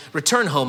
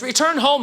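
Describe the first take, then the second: First: Said in the usual way. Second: Pressing plea. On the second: Acted. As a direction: push "Return home" up high, insisting. Naomi repeats plea, pressing harder.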